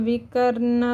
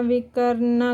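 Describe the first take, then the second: The two takes are said the same way.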